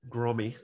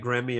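First: It is said the Australian way, like Grommy. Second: It is said the American way, like Grammy.

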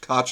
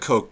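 First: The vowel rhymes with crotch. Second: The vowel does not rhyme with crotch. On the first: It is how everyone else says it. The speaker calls it right. "Koch like crotch" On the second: It is a pretentious air the family puts on. The speaker calls it wrong. "That's what they want to say"

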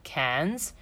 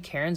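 First: The R is dropped, sounding like Cannes. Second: The R is clearly pronounced in the word. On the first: This is how the locals say it. "they say like Cairns, and it sounds like the French town, like Cannes" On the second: This is how an outsider says it. "I actually say Cairns"

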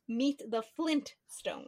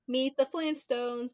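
First: The name is said with a T after N. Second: The name is said without a T after N. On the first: The speaker calls it right. "when it's meet the Flintstones" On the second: The speaker calls it wrong. "a lot of people remember the name Flintstones instead of Flintstones"

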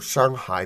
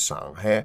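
First: It is said with the Mandarin vowel. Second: It is said with the Shanghainese vowel.

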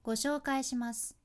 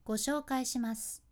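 The two takes are said the same way.

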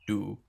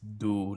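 First: The syllable has an English-style sound. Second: The syllable has a Sinhala-style sound. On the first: It is the adapted form used day to day. The speaker calls it wrong. "not do" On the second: It is the original form of the name. The speaker calls it right. "When you actually speak in Sinhalese, like it's do"

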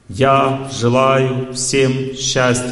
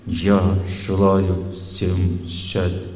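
First: It is said loudly, projected outward. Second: It is said quietly but with inner force.

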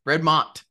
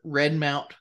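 First: The second syllable sounds like 'mont'. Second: The second syllable sounds like 'mount'. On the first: The speaker calls it right. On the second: The speaker calls it wrong.

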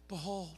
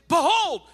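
First: The word is said flatly and casually. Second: The word is said with strong, attention-grabbing emphasis. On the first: It is just an ordinary passing word. The speaker calls it wrong. "It's not just this casual word" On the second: It is a call to look and pay attention. The speaker calls it right. "take a look. Pay attention"

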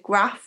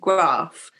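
First: It is said in the speaker's own accent. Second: It is said in a different, local accent. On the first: This is how the speaker naturally says it. "I say graph" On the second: This is how people in the area usually say it. "rather than graph"

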